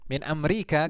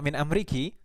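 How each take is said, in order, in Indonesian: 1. Kata itu berakhir dengan vokal 'a'. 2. Kata itu berakhir dengan vokal 'i'. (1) "Mau dalam dalam keadaan apapun tetap dibaca min Amerika" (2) "Tidak bisa diharokati kasroh"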